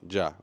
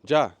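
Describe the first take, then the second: First: It is said in a plain, neutral tone. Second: It is said in an urging, impatient tone. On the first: It means already. "ya has the meaning that it has in the dictionary" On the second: It means we are ready, come on. "that one is like, all right, we're ready. Come on"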